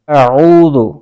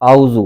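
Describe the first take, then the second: First: A glottal catch, then a throaty ain sound. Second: The throaty ain sound is missing entirely. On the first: The speaker calls it right. "पहले हमज़ा की आवाज़ है, फिर आइन की आवाज़ है" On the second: The speaker calls it wrong. "आइन की जगह हमज़ा की आवाज़ से पढ़ते हैं, इसको आऊ बना देते हैं"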